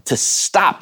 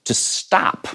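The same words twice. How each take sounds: First: To stop drawn out slowly with a lift; slow emphasis. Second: Whispered to stop, dropped soft; hushed. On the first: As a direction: savour the words to stop. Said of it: "think about that". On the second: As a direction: breathe the words to stop. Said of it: "which literally means". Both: Shown as a demonstration.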